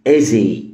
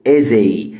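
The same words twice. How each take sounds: No difference in how they are said.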